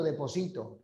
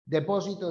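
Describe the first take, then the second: First: "deposito" stressed on "si", llana; stress on second-last syllable. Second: "Depósito" with stress on the "pó", esdrújula; stress on first syllable. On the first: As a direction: lean on "si" in "deposito". ("deposito" con acento en "si") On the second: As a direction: lean on "pó" in "Depósito". ("Depósito" con acento en "pó") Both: Shown as a demonstration. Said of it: "No es lo mismo rala que sala".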